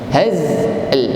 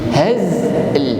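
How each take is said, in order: No difference in how they are said.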